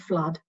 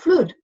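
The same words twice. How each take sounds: First: Flood has a vowel unlike good. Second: Flood has the same vowel as good. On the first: "for me, they're all different vowels" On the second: "people would rhyme good and flood"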